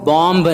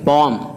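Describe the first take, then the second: First: The final b sound is pronounced. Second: The final b sound is silent. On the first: The speaker calls it wrong. "इसको बॉम्ब नहीं पढ़ेंगे" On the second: The speaker calls it right. "बॉम एम पढ़ेंगे, बी को नहीं पढ़ेंगे"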